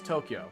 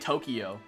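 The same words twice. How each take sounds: First: No extra syllable is added in the middle. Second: An extra syllable is added in the middle. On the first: The speaker calls it right. "It's Tokyo" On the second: The speaker calls it wrong. "You're adding an extra syllable that isn't there"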